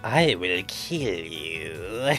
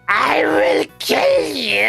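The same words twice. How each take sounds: First: It is said at a quiet volume. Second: It is yelled at full volume.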